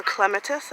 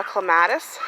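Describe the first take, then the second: First: "clematis" the English way, stressed on the first syllable; English pronunciation. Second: Said in the usual way. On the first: Shown as a demonstration. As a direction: say "clematis" as the English do, CLEM-uh-tis. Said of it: "as the English say". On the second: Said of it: "or clematis as the English say".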